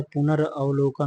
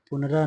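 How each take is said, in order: First: पुनरावलोकन, drawn out in its parts; correct form पुनरावलोकन. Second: पुनरा as a detached piece with long final aa; wrong form पुनरा. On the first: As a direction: say पुनरावलोकन slowly as punar plus avlokan. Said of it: "होता है". (पुनरावलोकन, धीरे-धीरे 'पुनर-अवलोकन' तोड़कर) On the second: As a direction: say पुनरा ending on a long raa. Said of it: "नहीं होता है". (पुनरा, अंत में लंबा 'रा') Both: Shown as a demonstration.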